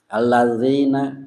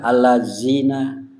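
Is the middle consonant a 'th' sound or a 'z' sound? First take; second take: th sound; z sound. First: The middle consonant is a soft 'th' sound. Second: The middle consonant is a buzzing 'z' sound. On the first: It is the real word meaning 'those who'. The speaker calls it right. "kallazina bukan pakai zal ya, kan pakai zal" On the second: It has no meaning at all. The speaker calls it wrong. "tapi dibaca allazina kezai"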